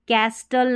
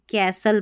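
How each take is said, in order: First: कैस्टल with the T sounded; wrong pronunciation. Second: कैसल with a silent T; correct pronunciation. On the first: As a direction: say कैस्टल with a clear T after S. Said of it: "अब इसको कैस्टल नहीं". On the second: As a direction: say कैसल, no T after S. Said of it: "कैसल पढ़ना है". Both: Shown as a demonstration.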